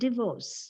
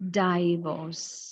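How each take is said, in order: First: The first vowel is a short pure vowel. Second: The first syllable sounds like 'die', a diphthong. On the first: The speaker calls it right. "what we need over there is a pure vowel" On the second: The speaker calls it wrong. "It is mispronounced as divorce. You see, it becomes die, die"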